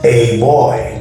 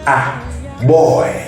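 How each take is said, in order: First: The first word sounds like the letter name 'ay'. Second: The first word sounds like a short 'ah'. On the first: The speaker calls it wrong. "In alphabetics, you're going to say a boy" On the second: The speaker calls it right. "in phonetics, the same sentence will be pronounced ah boy"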